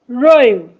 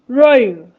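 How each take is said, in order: The two takes are said the same way.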